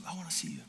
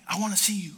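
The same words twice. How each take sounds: First: Soft whispered echo; whispered repeat. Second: Said in the usual way. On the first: Retold or imitated. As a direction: whisper the line back. Repeated softly, unvoiced.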